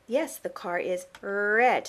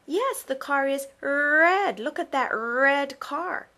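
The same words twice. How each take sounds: First: "red" slow and clear, R made plain; stress on red. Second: "red" said slow and clear, the R made plain; stress on red. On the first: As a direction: repeat it back, leaning on "red". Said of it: "you repeated it and you emphasized". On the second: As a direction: model "red" slowly and clearly. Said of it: "you can say". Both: Shown as a demonstration.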